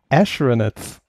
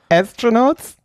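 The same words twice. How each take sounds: First: The first syllable begins with an 'sh' sound. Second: The first syllable begins with a plain 's' sound. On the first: "Ash, immer Ash" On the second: "Die sagt nicht Astronauts"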